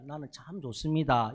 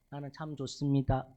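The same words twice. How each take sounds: First: It is said in a regional dialect accent. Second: It is said in standard Seoul speech. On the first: "존댓말 써가면서 합니다" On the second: "서울말 써가면서"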